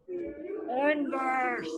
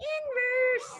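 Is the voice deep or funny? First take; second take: deep; funny. First: It is said in a deep voice. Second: It is said in a funny put-on voice.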